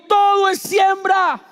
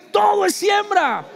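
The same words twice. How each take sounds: First: Slow, high shouted chant; shouted slogan. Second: Slow, higher shouted chant; louder shouted slogan. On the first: Preacher leading the crowd in a shouted chant. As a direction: shout the slogan slowly for them to repeat. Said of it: "Alguien grite conmigo". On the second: Preacher demanding a louder response, shouting. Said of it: "Más fuerte". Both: Shown as a demonstration.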